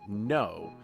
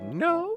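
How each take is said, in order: First: It is said at a normal pitch. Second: It is said at a higher pitch. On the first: "the sound you're making is you're saying no" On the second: "if you want to do like the like a higher pitch, go like"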